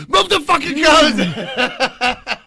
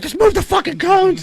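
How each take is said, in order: First: Very slow, high and loud, laughing; mock boss yelling; slow furious bark. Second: Very high strained order; hammed-up high command; mock squeaky yell. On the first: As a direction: drag out each word in anger. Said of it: "I was like". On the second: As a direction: shriek the order. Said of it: "He's like".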